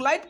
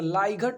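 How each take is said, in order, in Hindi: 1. इस शब्द में t से पहले g की ध्वनि नहीं है। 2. t से पहले g की ध्वनि सुनाई देती है। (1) "हम लोग लाइट पढ़ते हैं ना" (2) "अगर हम लेटर टू लेटर पढ़ें तो लाइघट हो जाएगा"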